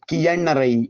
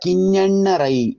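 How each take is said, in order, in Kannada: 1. ಮಧ್ಯದ ವ್ಯಂಜನ 'y' glide. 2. ಮಧ್ಯದ ವ್ಯಂಜನ ಒತ್ತಕ್ಷರದ ತಾಲವ್ಯ ನಾಸಿಕ. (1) "ನಮ್ಮ ಬಯಲುಸೀಮೆಯ ಎಷ್ಟೋ ಜನ ಕಿಯಣ್ಣರೈ ಎಂಬುದಾಗಿ ಎಲ್ಲ ಉಚ್ಚರಿಸ್ತಾರೆ. ಹಾಗಲ್ಲ" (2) "ಅದು ಈ ರೀತಿಯಲ್ಲೇ ಇರಬೇಕು ಉಚ್ಚಾರಣೆ"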